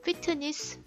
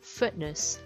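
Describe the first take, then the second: First: The middle t is fully released. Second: The middle t is cut off abruptly. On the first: The speaker calls it wrong. "fitness 하면 절대 안 되고요" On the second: The speaker calls it right. "그 끊기는 소리가 다시 한번 들어갈 거예요"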